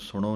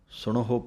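First: The word has no h sound before the ending. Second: The word has an audible h sound before the ending. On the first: The speaker calls it wrong. "ਇਹਨੂੰ ਸੁਣੋ ਨਹੀਂ ਕਹਿਣਾ" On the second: The speaker calls it right. "ਸੁਣਹੋ ਪਾਠ ਬੋਲਣਾ ਹੈ"

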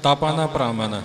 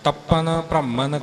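No difference in how they are said.

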